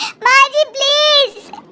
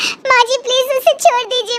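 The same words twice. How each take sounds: First: Very high, slow, stretched-out "माँ जी please"; drawn-out desperate plea. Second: Desperate crying out. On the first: Locked-in mother begs mother-in-law to free her daughter, long high wail. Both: Acted. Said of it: "जोर जोर से चिल्लाती है".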